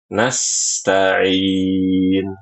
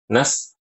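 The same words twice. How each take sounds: First: The s sound flows smoothly onward. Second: The s sound is cut off abruptly. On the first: The speaker calls it right. "harus dialirkan" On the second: The speaker calls it wrong.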